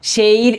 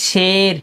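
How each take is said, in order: First: শের said as "sheir", gliding into ee; wrong ee glide. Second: শের drawn out as "sher" with a steady e; pure long e. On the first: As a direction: slide the vowel of শের from e to ee. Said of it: "এরকম হচ্ছে না". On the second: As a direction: hold one e in শের, no ee glide. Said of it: "এটা হচ্ছে শের". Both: Shown as a demonstration.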